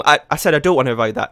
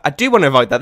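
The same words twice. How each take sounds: First: Said in the usual way. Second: "do" pressed a bit louder as the correction; stress on do. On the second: Shown as a demonstration. Correcting his own slip, leaning on "do". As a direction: lean on "do" to fix the slip.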